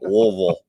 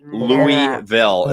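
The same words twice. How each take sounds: First: The syllables are swallowed, thick in the throat. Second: Every syllable is pronounced fully and clearly. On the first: The speaker calls it right. "You got something stuck in your throat" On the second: The speaker calls it wrong. "It's not Louisville"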